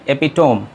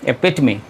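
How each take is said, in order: First: The word ends in a closed 'tome' sound. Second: The word ends in an 'uh-mee' sound. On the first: The speaker calls it wrong. "Generally इसको आप pronounce करेंगे एपिटोम, लेकिन यहाँ पे भी आप गलत हैं" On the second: The speaker calls it right. "इसका सही उच्चारण है एपिटमी"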